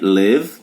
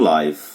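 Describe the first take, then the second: First: The vowel is a short 'ih' sound. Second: The vowel is an 'eye' sound. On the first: It is the verb meaning to reside. "na regra sem o E, live, como verbo viver" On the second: It means happening in real time. "E ao vivo eu leio live. Aí aplica a regra"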